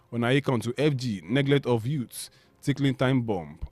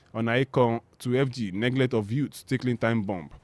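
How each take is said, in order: No difference in how they are said.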